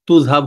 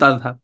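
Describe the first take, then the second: First: Regional form, first vowel sounds like 'u'. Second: Standard form, first vowel sounds like 'a'. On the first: This is a regional dialect form. "তুযহাব হয়ে যায়" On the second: This is the pure standard form. "এটা বিশুদ্ধ তাযহাব"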